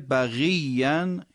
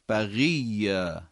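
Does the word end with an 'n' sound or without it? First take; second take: with n; without n. First: The word ends with an 'n' sound. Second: The word ends without an 'n' sound. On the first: The reading continues without stopping. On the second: The reader stops at this word.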